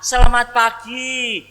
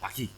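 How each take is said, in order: First: The greeting sounds bright and joyful. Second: The greeting sounds curt and annoyed.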